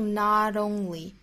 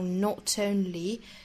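First: The t is a soft, relaxed flap. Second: The t is released with strong aspiration. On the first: "美音会发成 not only 更加轻松更加柔软" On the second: "不像英式发法会有很强烈的爆破送气"

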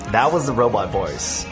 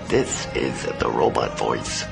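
First: It is said in a natural speaking voice. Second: It is said in a robotic put-on voice.

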